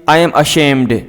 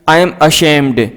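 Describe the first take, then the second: No difference in how they are said.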